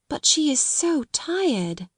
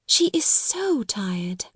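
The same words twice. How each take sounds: First: Slow, high, tender thought; tender musing. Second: Slow, tender echo of the thought; quiet repeat. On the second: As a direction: lean on "She" softly, slowly. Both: A narrator's reading. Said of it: "she thought".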